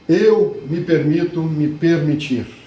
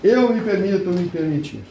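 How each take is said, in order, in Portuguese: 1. É dita com força, com muita energia. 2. É dita de forma monótona, com pouca energia. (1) "Olha a energia que eu coloquei" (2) "Vocês estão falando assim"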